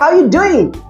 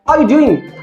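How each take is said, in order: First: The word 'are' is dropped entirely. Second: The word 'are' is pronounced in full.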